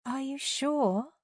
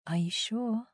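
First: High, drawn-out mocking lilt; sing-song. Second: Soft, coaxing coo. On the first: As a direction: taunt slowly in a soft sing-song. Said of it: "asked in a sing-song tone". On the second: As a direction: coo it gently, tempting her. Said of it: "she cooed". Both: A narrator's reading.

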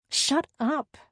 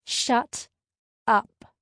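First: High, short snap; snapped. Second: "shut" and "up" split by a pause, "up" loud; emphatic repeat. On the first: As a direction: snap at your teasing friend. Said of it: "I snapped". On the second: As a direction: land "shut", wait, then hit "up" hard. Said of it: "I repeated". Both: A narrator's reading.

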